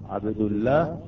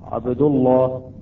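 First: The L in Allah is light and thin. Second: The L in Allah is heavy and full. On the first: The speaker calls it wrong. "عبد الله غلط" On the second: The speaker calls it right. "هنا تفخم اللام"

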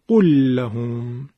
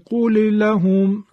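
First: The first L merges into a doubled second L. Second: Both L sounds are pronounced separately. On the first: The speaker calls it right. "لام قول رو که ساکنه حذف میکنیم، به جاش لام لهم رو تشدید میدیم" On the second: The speaker calls it wrong. "اگه ما بخوایم بگیم قول لهم سخته"

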